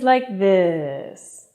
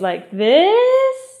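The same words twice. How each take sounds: First: The pitch falls at the end. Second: The pitch rises at the end. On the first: "falling intonation is like this" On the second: "Rising intonation is like this"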